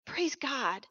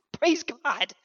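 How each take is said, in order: First: Said in the usual way. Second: Loud praise. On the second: Real, not acted. Preacher calling praise to the congregation, loud. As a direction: praise God, called out louder and ringing.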